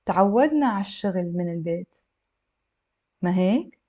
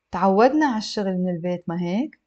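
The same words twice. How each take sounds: First: Careful reading with a long pause before the tag question; measured model sentence for learners; a little slow. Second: Fluent, connected model reading; slightly brisk for learners; a little faster. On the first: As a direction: read slowly, not too slowly. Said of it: "a little bit slow". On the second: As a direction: run straight into the tag question. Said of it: "I'll read it a little bit faster". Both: Shown as a demonstration.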